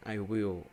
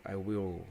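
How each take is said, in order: Both takes have the same delivery.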